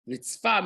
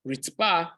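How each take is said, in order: First: "Ritzfa" with an f, not a p; clear f sound. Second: "Ritzpa" said with a hard p; crisp "Ritzpa", p not f; clear p sound. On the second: Teacher contrasts the hot coal word with a hard p. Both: Shown as a demonstration. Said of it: "ritzpa and ritzfa".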